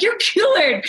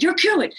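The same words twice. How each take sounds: First: Excited insistence. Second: High, lightly voiced doctor verdict; quoted doctor. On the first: Retold or imitated. Husband telling his wife she's cured, excited high insistence. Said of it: "I'm like". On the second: Doctor telling Siri she's cured, high excited quote. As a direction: relay the doctor's verdict brightly. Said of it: "And the doctor said".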